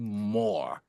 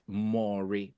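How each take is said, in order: First: The name is read like the English word more. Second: The name is read with a Yoruba vowel pattern. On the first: The name is not of Yoruba origin. The speaker calls it right. "it's actually more" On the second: The name is assumed to be a Yoruba name. The speaker calls it wrong. "As a typical Yoruba boy, I would call that Maury because two O's"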